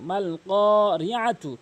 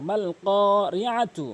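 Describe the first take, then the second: Both takes have the same delivery.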